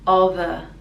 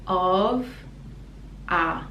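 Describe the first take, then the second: First: The words are linked, with a voiced v. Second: The two words are said apart, unlinked. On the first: "together we link the sounds and it's of a" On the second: "So separately, these are the sounds"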